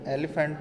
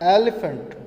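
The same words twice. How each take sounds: First: Said in the usual way. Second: एलिफेंट said louder and higher, clearly; model pronunciation. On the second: Shown as a demonstration. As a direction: call out एलिफेंट as the model word. (एलिफेंट को ज़ोर से ऊँचा बोलना) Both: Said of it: "एलिफेंट में ए की आवाज़ आती है".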